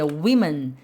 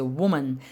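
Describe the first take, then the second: First: Women said with the first vowel like a short i, wi-men; women pronounced wi-men; plural women. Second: Woman said with the first vowel like the u in put, wu-man; woman pronounced wu-man; singular woman. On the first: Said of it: "a pronúncia é women". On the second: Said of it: "olha a pronúncia". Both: Shown as a demonstration.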